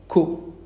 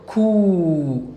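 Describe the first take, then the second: First: The vowel is kept short. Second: The vowel is held long. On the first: "simplement, ko" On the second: "avec le waouh, kou"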